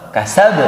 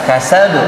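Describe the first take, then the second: No difference in how they are said.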